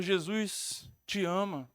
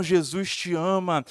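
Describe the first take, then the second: First: Soft, low, drawn-out retold voice; slow, gentle-volume quote of a voice; distant first call. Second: Low, slow, firmly projected quote; measured, deep-pitched insistence; retold stronger voice. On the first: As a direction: recount a faint voice, slowly and low. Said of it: "aquela voz fala mais forte". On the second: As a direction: recount the voice firmly, drawing it out. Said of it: "aquela voz fala mais forte ainda".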